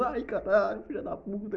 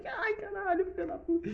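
First: High-pitched amazed cry; high excited cry. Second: Very high squealing cry. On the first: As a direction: squeal it in disbelief. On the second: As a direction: squeal it far higher, near falsetto. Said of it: "Eu falei". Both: Retold or imitated.

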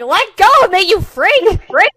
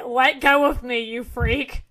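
First: High, very loud outraged shout; shrieked demand to be released; yelping protest. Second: Slightly raised, understated acted complaint; a toned-down retake of an outburst; mildly indignant, barely acted; mild protest. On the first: Acted. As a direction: yell it as you're being yanked down. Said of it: "she yelps and she goes down". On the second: Repeats the girl's protest more mildly.

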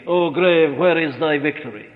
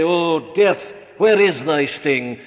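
First: Defiant taunt of the grave, dropping back at the end; triumphant challenge. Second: Triumphant challenge. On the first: Preacher taunting the grave for his flock, defiant. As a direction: throw the question at the grave in triumph. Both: Acted. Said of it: "challenge them and say".

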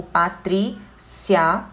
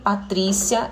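First: Slow syllable demo. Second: Said in the usual way. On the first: Shown as a demonstration. Teacher spelling out her own name for the class, slowly drawn out. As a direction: draw out Patrícia very slowly, syllable by syllable, ending on a rise. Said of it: "Uma paroxítona terminada em ditongo". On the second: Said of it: "ele se encaixa nessa regrinha".

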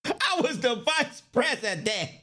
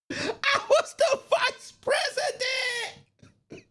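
First: Said in the usual way. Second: A mock outraged shriek; high, slow laughing wail. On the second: Shown as a demonstration. Acting out the arrested man's outrage in a high slow laughing squeal.

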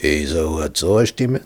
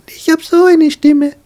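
First: Lower, Esau's voice on so eine Stimme. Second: Much higher and louder on so eine Stimme, changed timbre; Jacob's own high voice. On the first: Jacob showing his mother how Esau sounds, lower. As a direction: drop down into a lower brother's voice. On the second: Jacob showing his mother how he sounds, high and loud. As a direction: jump up into a high squeaky voice. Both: Shown as a demonstration.

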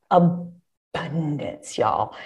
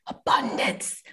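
First: Abundance stretched slow and soft, low; drawn out. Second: Abundance whispered, slow and breathy. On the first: Telling students about the many contracts, Abundance drawn out slow and soft. Stressing the plentiful opportunities. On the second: Sharing a secret about contracts with students, Abundance whispered slowly. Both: Shown as a demonstration.

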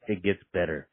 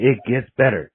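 First: It gets better, much lower and softer, almost whispered; soft near-whisper. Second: Said in the usual way. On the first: Retold or imitated. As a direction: murmur it gently. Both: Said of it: "and he goes".

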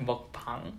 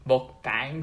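First: Mukbang ending like PUNG, open vowel; Korean pronunciation. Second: Mukbang with English BANG, rhyming with hang; anglicized pronunciation. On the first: Explaining inconsistent romanization to friends, Korean-sounding mukbang. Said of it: "the classic one is, like, mukbang versus". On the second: Explaining inconsistent romanization to friends, anglicized mukbang. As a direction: say mukbang slowly with a flat English A. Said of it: "the classic one is". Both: Shown as a demonstration.

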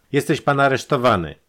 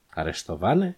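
First: Loud, high declaration of arrest; arrest announcement. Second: „Aresztowany“ at normal volume, rising at the end; puzzled question. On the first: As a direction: announce the arrest forcefully, pitched up. Detective seizes and handcuffs his victim. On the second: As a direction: ask „Aresztowany“ with an upward questioning tune. The handcuffed man questions the arrest. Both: A narrator's reading.

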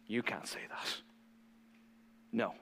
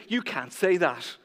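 First: Whispered, breathless "You can't say that."; hushed mock outrage. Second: Said in the usual way. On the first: Preacher voicing shocked leaders, whispered mock outrage. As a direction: hiss it like a scandalized insider. Religious leaders hate Jesus' statement.

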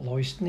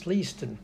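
First: Leiston as LOY-stən; rejected LOY pronunciation. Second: Leiston as LEE-stən; corrected LEE pronunciation. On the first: Host quoting the club's correction, Leiston as LOY-stən. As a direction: voice Leiston with oy in the first syllable. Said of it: "it's Leiston". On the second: Host quoting the club's correction, Leiston as LEE-stən. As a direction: voice Leiston with ee in the first syllable. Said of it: "No, it's not Leiston". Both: Retold or imitated.

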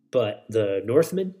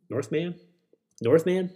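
First: Said in the usual way. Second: Higher, sing-song rising question; playful high repeats. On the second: Pretend. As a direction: toss the word up playfully, higher each time.

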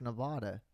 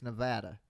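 First: "Nevada" with an AH middle vowel, nuh-VAH-duh; "Nevada" rhyming its middle with spa; disputed pronunciation. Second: "Nevada" with a short A, nuh-VAD-uh; "Nevada" with its middle like VAD; local pronunciation. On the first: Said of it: "It's not pronounced Nevada". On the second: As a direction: say "Nevada" with the vowel of cat. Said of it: "Ask anybody from there". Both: Shown as a demonstration.

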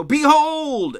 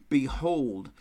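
First: Behold shouted high and loud; exclamation. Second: Said in the usual way. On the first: Retold or imitated. Someone calling a crowded room to attention, shouting. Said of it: "often this word is used with exclamation". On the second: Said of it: "and this is a very important word".

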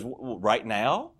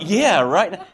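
First: Slow, questioning "right now?" with a stumbling start; imitated wife, caught off guard on "right now?"; hesitant question. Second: "Yeah, right now" punched loud and high; retold eager, emphatic "Yeah, right now"; impatient insistence. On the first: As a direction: stammer into "right now?", rising at the end. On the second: His impatient answer, retold.

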